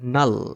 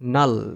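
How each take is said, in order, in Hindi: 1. यह शब्द n ध्वनि से शुरू होता है। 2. यह शब्द n ध्वनि से शुरू होता है।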